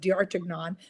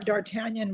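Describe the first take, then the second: First: The name is said with French sounds. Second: The name is said with English spelling sounds. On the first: This is how the name is really said. The speaker calls it right. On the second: This is how the speaker once misread it. The speaker calls it wrong.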